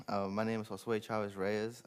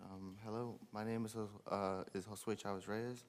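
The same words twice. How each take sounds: First: Said in the usual way. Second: Quiet, hesitant and nervous. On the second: Real, not acted. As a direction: stumble shyly over your name. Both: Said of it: "I'm a little nervous".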